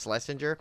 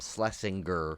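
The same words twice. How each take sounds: First: The G in the name is soft. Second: The G in the name is hard. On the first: The speaker calls it right. "it's supposed to be actually Schlesinger" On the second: The speaker calls it wrong. "he doesn't like when people call him Schlesinger"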